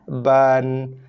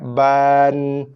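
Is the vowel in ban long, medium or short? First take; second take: medium; long. First: The vowel lasts one moderate beat. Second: The vowel is drawn out far too long. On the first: The speaker calls it right. "ngam-ngam satu harakat" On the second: The speaker calls it wrong. "Tak boleh juga lambat sangat, panjang sangat"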